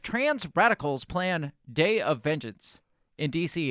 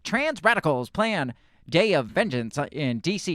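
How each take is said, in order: First: It is read in the speaker's normal voice. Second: It is read in a fast, put-on voice.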